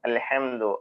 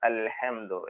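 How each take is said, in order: First: The h sound is clearly pronounced after l. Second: The h sound is clearly pronounced after l.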